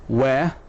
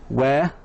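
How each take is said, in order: Both takes have the same delivery.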